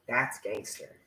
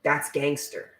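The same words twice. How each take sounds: First: Said again much softer, half to herself; soft echo. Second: Said in the usual way. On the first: Shown as a demonstration. Echoing her own remark softly to the viewers. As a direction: let it fall away under your breath. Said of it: "repeats her own remark softly". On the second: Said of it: "repeats her own remark".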